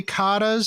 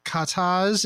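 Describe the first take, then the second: First: Katas said as KAH-tuhz; first-syllable stress. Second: Katas said as kuh-TAHZ; second-syllable stress. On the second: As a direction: katas with a long, open final syllable. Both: Shown as a demonstration. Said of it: "some people say katas".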